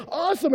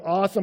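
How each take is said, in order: First: High, loud, gloating echo; mock-ecstatic self-congratulation; self-delighted gushing. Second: Said in the usual way. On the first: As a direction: revel in the praise, hammed up. Speaker echoing praise with delight. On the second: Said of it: "people go".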